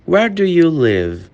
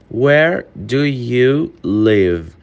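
First: Said in the usual way. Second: Very slow, each word drawn out; slow it right down for learners; careful slow model sentence; slow demo. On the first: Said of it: "slow take just before". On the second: Shown as a demonstration. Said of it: "repeated at normal pace".

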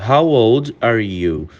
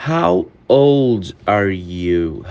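First: Said in the usual way. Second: Very slow and low, spaced words; slow careful model question; slow demo. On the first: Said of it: "slow take just before". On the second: Shown as a demonstration. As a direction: lay it out slowly for students. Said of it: "repeated at normal pace".

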